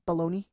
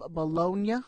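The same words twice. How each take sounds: First: It is said the American way. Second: It is said the Italian way.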